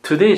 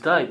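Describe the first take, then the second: First: It has a standard 'ay' vowel sound. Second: It has an Australian 'eye' vowel sound.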